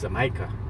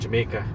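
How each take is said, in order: First: It is pronounced with Spanish sounds. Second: It is pronounced with English sounds. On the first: "in Spanish is Jamaica" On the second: "you know the word"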